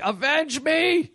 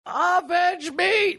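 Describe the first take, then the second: First: Slow, high, hammed-up dying cry; overacted death scene. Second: Slow, very high, hammed-up dying cry; overacted death scene. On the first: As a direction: wail it out like a hammy death scene. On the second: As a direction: stretch it out like a dying hero. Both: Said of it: "the movie where he's like".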